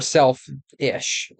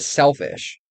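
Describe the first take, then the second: First: The word is split into two separate parts. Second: The word is said smoothly as one unit.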